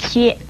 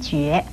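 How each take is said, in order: First: It is xue with a level first tone. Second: It is jue with a rising second tone. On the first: "一声薛" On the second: "二声觉"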